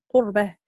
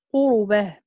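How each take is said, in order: First: قربه with a silent vowelless ra, "qur-bah"; ra bez samogłoski. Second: قربه with a u after the ra, "qu-ru-bah"; ra z samogłoską u. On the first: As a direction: say قربه in two syllables, closing on the r. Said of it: "بإسكان الراء". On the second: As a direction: say قربه in three syllables, voweling the r. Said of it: "الإمام ورش يخالفه". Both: Shown as a demonstration.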